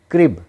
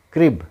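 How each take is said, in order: Both takes have the same delivery.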